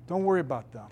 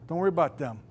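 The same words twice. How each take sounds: The two takes are said the same way.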